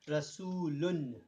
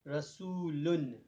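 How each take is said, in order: First: The word ends with an n sound. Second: The word ends with an n sound.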